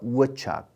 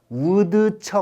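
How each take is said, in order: First: The d sound in the middle is dropped. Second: The d sound in the middle is pronounced. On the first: The speaker calls it right. "발음 안 해" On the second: The speaker calls it wrong. "우드척 아니고요"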